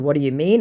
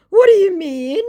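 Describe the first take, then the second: First: Said in the usual way. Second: Very high, loud rising question; baffled scammer. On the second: Acted. Scammer told he's no good at this, mock bafflement.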